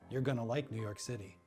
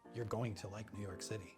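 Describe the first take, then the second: First: 'Going to' is reduced to 'gonna'. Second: 'Going to' is said in full. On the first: The speaker calls it right. "They say gonna. So you'll hear" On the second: The speaker calls it wrong. "You won't hear"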